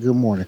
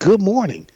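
First: It is said in a flat, unenthusiastic way. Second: It is said in a peppy, cheerful way.

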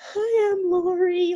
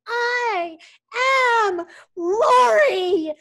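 First: It is said very quietly. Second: It is said as a loud scream.

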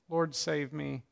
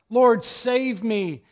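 First: It is said calmly, like plain reading. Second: It is cried out desperately for help.

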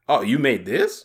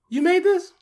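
First: The tone sounds doubtful and unimpressed. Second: The tone sounds amazed and admiring. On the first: The listener doubts or looks down on the work. "there's two inflections" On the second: The listener is amazed by the work. "we were getting that second one more often than the first one. Thankfully"

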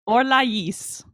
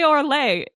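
First: The final S sound is pronounced. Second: The final S sound is silent. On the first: "and they pronounce the S" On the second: "They don't say Orlais when they're speaking French"

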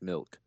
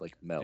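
First: The vowel is a short 'ih' sound. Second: The vowel is an 'eh' sound, like melk. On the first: "you said it right"

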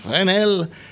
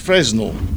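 First: The name is said with its original pronunciation. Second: The name is said with an anglicized pronunciation. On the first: The speaker calls it right. "In fact, the guy's name is Fresnel" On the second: The speaker calls it wrong. "Barbaric English pronunciation is Fresnel"

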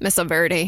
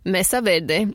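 First: It is said with an American accent. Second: It is said with a Spanish-like accent.

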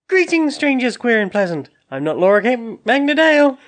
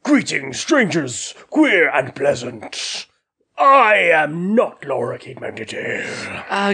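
First: It is delivered with little energy. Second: It is delivered with more energy and drama.

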